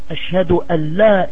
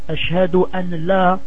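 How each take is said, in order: First: The n sound is dropped, merging into la. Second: The n sound is pronounced before la. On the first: The speaker calls it right. "Il n'y a pas le nun. On enlève le an" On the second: The speaker calls it wrong. "ça c'est faux"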